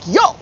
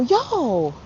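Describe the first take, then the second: First: It sounds indignant, like a complaint. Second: It sounds like a friendly greeting.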